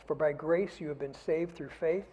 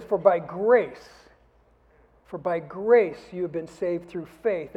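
First: Said in the usual way. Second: For by grace slow and louder, grace stressed; emphatic reread. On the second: Shown as a demonstration. Preacher rereading the verse to make the congregation catch it, emphatic. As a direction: drive home the word grace. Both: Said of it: "Did you catch this?".

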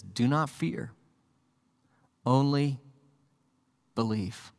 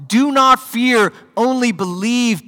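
First: Soft, quiet "Do not fear, only believe"; hushed and tender. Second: Much higher and louder, slow "Do not fear, only believe"; triumphant proclamation. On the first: Jesus comforting the grieving father, soft and hushed. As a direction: lay it down gently, almost a breath. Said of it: "and Jesus says". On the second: Jesus proclaiming lordship over death, slow, high and loud. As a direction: proclaim it like the Lord of life. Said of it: "His lordship over death itself". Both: Shown as a demonstration.

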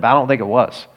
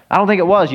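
First: Said in the usual way. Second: "think" lifted higher and louder; emphatic repeat. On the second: Shown as a demonstration. Pastor reassuring the church, stressing "think" higher and louder. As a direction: insist on it, leaning on "think".

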